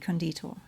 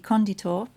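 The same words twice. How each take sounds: First: The stress is on the second syllable. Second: The stress is on the first syllable. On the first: It means an embalmer. "the word for an embalmer would be conditor" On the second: It means a builder or founder. "the word for a builder should be conditor"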